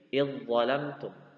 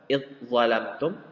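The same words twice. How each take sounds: First: The dh sound merges fully into the following z. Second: The dh sound is pronounced separately before z. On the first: "Masukkan zanya, idghamkan zanya ke dha. Menjadi" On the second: "Yang awalnya dibaca"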